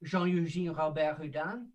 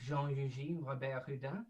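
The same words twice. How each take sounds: First: A playful, modest stab at French for "Jean-Eugène Robert Houdin"; lightly Frenchified "Jean-Eugène Robert Houdin" in a self-mocking show-off way; French accent. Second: "Jean-Eugène Robert Houdin" spelled out slowly and softer; slow, softer "Jean-Eugène Robert Houdin" so everyone can follow. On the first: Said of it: "an amazing French accent like mine, I'll say that again". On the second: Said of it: "I'll say it slowly for you". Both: Shown as a demonstration.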